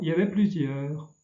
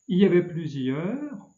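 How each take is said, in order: First: The opening 'il' is dropped entirely. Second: The opening 'il' is clearly pronounced.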